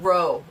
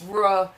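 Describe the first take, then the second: First: The syllable ends in a long oh vowel. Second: The syllable ends in a short uh vowel. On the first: The speaker calls it wrong. "not row" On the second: The speaker calls it right. "it's ruh"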